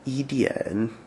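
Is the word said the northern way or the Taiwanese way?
Taiwanese. The word ends without any r sound. "in Taiwan, I think they they would say"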